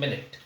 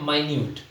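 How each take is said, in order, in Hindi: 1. यह 'minnit' जैसा बोला जाता है, पहले अक्षर पर जोर देकर। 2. यह 'my-nyoot' जैसा बोला जाता है, दूसरे अक्षर पर जोर देकर।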